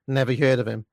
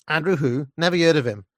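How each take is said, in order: First: Said in the usual way. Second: Louder Cockney with dropped aitches. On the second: Acted. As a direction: mimic a dismissive Cockney girl. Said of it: "that classic blend of Michael Caine Cockney".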